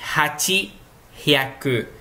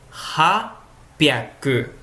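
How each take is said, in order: First: Eight and hundred are said fully, unjoined. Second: The parts merge with a doubled p sound. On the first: The speaker calls it wrong. "a leitura não é hachihyaku" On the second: The speaker calls it right. "É hapyaku"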